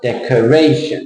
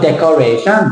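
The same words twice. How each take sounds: First: "Decoration" as dec-uh-RAY-shun; dec-uh-RAY-shun with a falling end; correct stress. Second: Thai-accented "decoration", rising final SHUN. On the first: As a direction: stress RAY, let "tion" fall. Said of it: "It's not decoration". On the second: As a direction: say "decoration" the Thai way, dec-kor-ray-SHUN. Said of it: "Thai people". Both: Shown as a demonstration.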